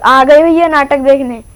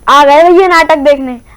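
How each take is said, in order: First: It is said at normal, quieter volume. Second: It is said loudly, projected for a stage.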